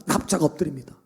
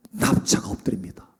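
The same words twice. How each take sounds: First: Said in the usual way. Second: Hushed. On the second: A narrator's reading. Telling Moses lying prostrate.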